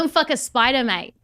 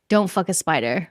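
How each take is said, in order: First: It is said in a strong Australian accent. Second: It is said without a put-on Australian accent.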